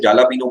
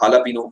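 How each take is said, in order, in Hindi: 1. यह J की आवाज़ से शुरू होता है। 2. यह H की आवाज़ से शुरू होता है। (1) "जब आप इसे जालापीनो बोल सकते हैं" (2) "लिखते जे है, बोलते एच है"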